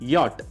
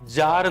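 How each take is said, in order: First: The word begins with a Y sound. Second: The word begins with a J sound. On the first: It is read as a German word. The speaker calls it right. "what is the German pronunciation here? It is" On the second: It is read as an English word. The speaker calls it wrong. "ഇംഗ്ലീഷിൽ വായിക്കുമ്പോൾ you read it as"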